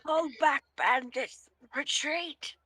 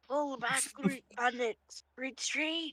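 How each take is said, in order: First: The line is loudly shouted. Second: The line is spoken without shouting. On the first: The speaker calls it right. "Just, just sh- shout yelling" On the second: The speaker calls it wrong. "Was that posh?"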